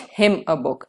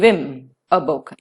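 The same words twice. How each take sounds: First: The full word 'him' is said with h. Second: The h is dropped, leaving a reduced 'm'. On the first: The speaker calls it wrong. "and not" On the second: The speaker calls it right. "Him is reduced to M, where the her is kept silent"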